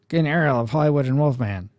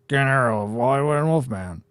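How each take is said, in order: First: The voice sounds a little nerdy. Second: The voice sounds strained and tight.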